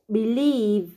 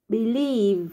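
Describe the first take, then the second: The two takes are said the same way.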